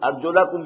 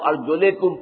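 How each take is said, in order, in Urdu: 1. l کے بعد آنے والی آواز a ہے۔ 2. l کے بعد آنے والی آواز i ہے۔ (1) "ارجلکم کی بجائے" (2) "وہ ارجلکم پڑھتے ہیں"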